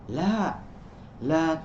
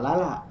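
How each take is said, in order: First: The two words are separated by a short pause. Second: The two words run together without a pause. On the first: The first answers no, the second forbids. The speaker calls it right. "Tapi ada jeda" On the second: It sounds like a woman's name. The speaker calls it wrong. "Jadi tidak dibaca lala"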